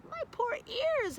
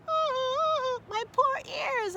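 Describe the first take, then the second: First: Much higher, slow whimpering complaint; a dog wincing at sirens; mild howl. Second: Much higher, louder, slow wailing cry; crying howl. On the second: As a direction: wail as the sirens hurt. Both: Acted. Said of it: "howled Cavendish".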